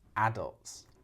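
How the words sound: It is said with the British stress pattern. "adults is U K English"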